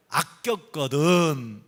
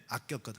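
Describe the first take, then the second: First: Very slow, falling scripture cadence; drawn-out verse ending. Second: Said in the usual way. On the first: Acted. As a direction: stretch each syllable of 아꼈거든 and let it fall. Ends the verse being read aloud.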